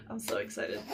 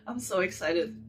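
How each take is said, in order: First: Softer, hushed excitement. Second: Said in the usual way. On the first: Real, not acted. Whispering her excitement before opening the box. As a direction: say it under your breath.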